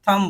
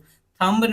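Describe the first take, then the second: First: The final b sound is silent. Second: The final b sound is pronounced. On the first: The speaker calls it right. "सिर्फ थम बोलना है" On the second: The speaker calls it wrong. "थंब नहीं होगा"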